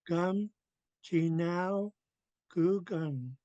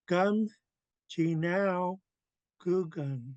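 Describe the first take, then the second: First: The vowel is blended into the second word. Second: The same.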